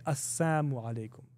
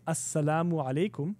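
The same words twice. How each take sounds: First: "Assamu" with no l, as-SA-mu, the l dropped; Assamu alaikum, the insult. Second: "Assalamu" said clearly with the l, as-sa-LA-mu; Assalamu alaikum with salam. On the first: Mimicking the insulters who said "Assamu" instead. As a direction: slip the insult in: "Assamu" said quickly, with no l. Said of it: "they would say". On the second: Explaining the greeting, says "Assalamu" with the l. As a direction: greet them properly: "Assalamu alaikum", salam sounded in full. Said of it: "Instead of saying". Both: Shown as a demonstration.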